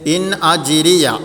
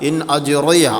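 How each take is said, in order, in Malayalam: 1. r നേർത്തതും ലഘുവുമായി ഉച്ചരിക്കുന്നു. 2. r കനത്തതും വായ നിറഞ്ഞതുമായി ഉച്ചരിക്കുന്നു. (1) "തർക്കീക്കാക്കിയിട്ട് നേർപ്പിച്ചിട്ട് ഉച്ചരിക്കേണ്ടത്" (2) "അങ്ങനെ ഉച്ചരിക്കരുത്"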